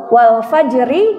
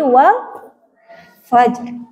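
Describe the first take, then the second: First: The last word ends with a short vowel. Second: The last word ends on a bare consonant.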